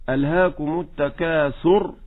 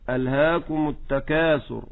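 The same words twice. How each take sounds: First: التكاثر stressed on its final syllable, rising. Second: ألهاكم stressed near its start, falling after. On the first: Teacher asks which stress is right. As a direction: lean on the end of التكاثر. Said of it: "هل نقول". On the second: Teacher offers the second stress option. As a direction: lean into ألهاكم, then fall. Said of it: "ولا". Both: Shown as a demonstration.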